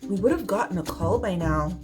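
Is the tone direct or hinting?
hinting. The tone is soft and gently suggestive. Something might be going wrong. "the hint approach"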